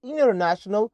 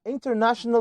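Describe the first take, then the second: First: "international" said as "innernational"; American "international" with no T; silent T. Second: "international" with the T sounded; T pronounced. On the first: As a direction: drop the T after N in "international". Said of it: "أو قلت international صح". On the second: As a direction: say "international" as "in-ter-national". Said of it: "لو قلتها international صح أو قلت international صح". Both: Shown as a demonstration.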